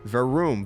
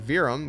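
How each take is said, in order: First: The second vowel is a long 'oo' sound. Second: The second vowel is a short 'uh' sound. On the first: The speaker calls it right. "it's Veroom. V E R O O M" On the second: The speaker calls it wrong. "It's actually not Verum"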